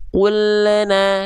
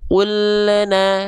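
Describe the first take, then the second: No difference in how they are said.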